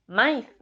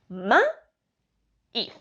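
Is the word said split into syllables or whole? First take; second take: whole; split. First: The word is said smoothly in one piece. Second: The word is broken into separate syllables. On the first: The speaker calls it wrong. "No decimos maíz" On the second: The speaker calls it right. "decimos ma-íz"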